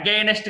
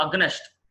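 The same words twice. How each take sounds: First: Against said "a-GAYNST"; mistaken pronunciation. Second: Against said "AG-nest", short vowel; short, quick middle in against; correct pronunciation. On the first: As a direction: draw out a long ay in against. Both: Shown as a demonstration. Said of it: "against కాదండి".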